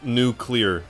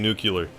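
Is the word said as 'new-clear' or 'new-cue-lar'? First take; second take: new-clear; new-cue-lar. First: The word is said as new-clear. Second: The word is said as new-cue-lar. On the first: The speaker calls it right. "I know it's nuclear" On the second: The speaker calls it wrong. "when I go to say the word, I say nuclear"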